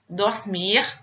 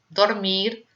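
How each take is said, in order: First: The final R is a French-style throaty R. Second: The final R is a Spanish-style tapped R. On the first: "o R pronunciado como em francês" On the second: "temos o R de espanhol"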